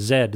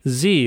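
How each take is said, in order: First: The letter is said the Canadian way, 'zed'. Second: The letter is said the non-Canadian way, 'zee'.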